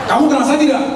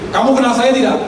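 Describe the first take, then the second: No difference in how they are said.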